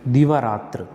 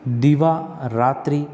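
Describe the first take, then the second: First: दीवारात्र said as one word with a falling close; सही रूप दीवारात्र; correct form. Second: दीवा रात्रि said as two words, slow and rising; गलत रूप दीवा रात्रि; wrong form. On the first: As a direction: state the right form firmly. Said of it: "क्या होता है?". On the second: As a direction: present the mistaken form. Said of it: "दीवा रात्रि नहीं होता है". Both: Shown as a demonstration.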